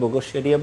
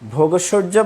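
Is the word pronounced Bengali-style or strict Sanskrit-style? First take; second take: Sanskrit-style; Bengali-style. First: It is pronounced in a careful Sanskrit way. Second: It is pronounced in an everyday Bengali way. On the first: This is the pure Sanskrit form. "সংস্কৃত শুদ্ধ উচ্চারণের ক্ষেত্রে ভোগৈশ্বর্য বলবো" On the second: This is acceptable but not strictly pure. "ভোগৈশ্বর্য বললে ভুল নেই"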